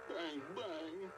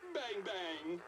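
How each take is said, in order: First: It is said in a sad tone. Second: It is said in a happy tone.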